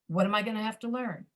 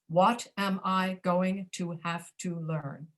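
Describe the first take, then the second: First: The vowels are reduced to a schwa. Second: The vowels are said with a full sound. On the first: The speaker calls it right. "You're reducing an ah to a uh" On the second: The speaker calls it wrong. "Instead of"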